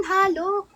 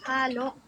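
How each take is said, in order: First: First try at Halok, pitched up; trying a Bisaya word. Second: Said in the usual way. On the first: Shown as a demonstration. Streamer tries out Halok for her viewers, pitched up. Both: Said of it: "This is halok".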